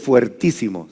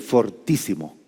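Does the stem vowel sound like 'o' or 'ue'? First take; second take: ue; o. First: The stem has the 'ue' diphthong. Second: The stem has a plain 'o' vowel. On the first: The speaker calls it wrong. "No se dice fuertísimo" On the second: The speaker calls it right. "se dice fortísimo"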